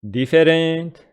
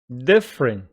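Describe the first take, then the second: First: The vowel after the stressed syllable is pronounced. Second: The vowel after the stressed syllable is dropped. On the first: The speaker calls it wrong. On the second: The speaker calls it right.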